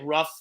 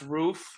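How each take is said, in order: First: The word sounds like 'rough', with a short vowel. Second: The word sounds like 'roof', with a long vowel. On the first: The speaker calls it wrong. "we don't say rough at this company" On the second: The speaker calls it right. "It's pronounced roof"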